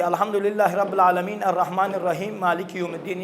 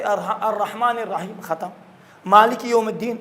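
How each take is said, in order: First: الحمدللہ رب العالمین الرحمن الرحیم read with pauses yet the final vowels still sounded; wrong joined stop. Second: الرحیم ended on a silent م and a full pause before Malik; clean stop with sukun. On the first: Teacher showing parents the wrong way to pause in الحمد, stopping but still joining. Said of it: "یہ غلط ہے". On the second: Teacher showing parents the correct stop in الحمد, each verse closed with sukun. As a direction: stop dead on الرحیم, then start مالک یوم الدین fresh. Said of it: "وقف کریں ساکن کر کے". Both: Shown as a demonstration.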